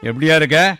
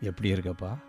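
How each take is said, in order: First: It is asked in a stern, harsh tone. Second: It is asked in a soft, gentle tone. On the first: The listener feels afraid or angry. "கொஞ்சம் கடுமையாக கேட்டால்" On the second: The listener feels comforted. "மென்மையாக கேட்டால்"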